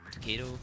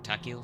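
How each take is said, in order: First: Takeo said like "tuh-KAY-do"; mistaken pronunciation. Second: Takeo said like "TACK-ee-oh"; corrected pronunciation. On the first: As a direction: say Takeo with a stressed KAY and a d-like sound before the o. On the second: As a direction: say Takeo with an open "tack" and a gliding "ee-oh". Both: Real, not acted. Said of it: "Or Takeo, sorry".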